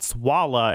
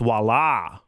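First: The stress is on the first syllable. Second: The stress is on the last syllable. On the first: The speaker calls it wrong. "It's not Swalla" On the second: The speaker calls it right. "with the emphasis on the la"

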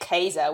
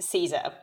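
First: The name begins with a hard K sound. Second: The name begins with a soft S sound. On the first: This is the ancient Roman pronunciation. "we also don't say Caesar" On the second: This is the familiar modern pronunciation. "we say Caesar"

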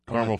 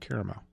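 First: The word is said in an everyday, casual way. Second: The word is said in a fancy, refined way. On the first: The speaker is ordering normally, not trying to impress. "if I'm at Grater's and I'm saying I want caramel fudge" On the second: The speaker is trying to sound sophisticated. "But if I'm being fancy, I'll say caramel"

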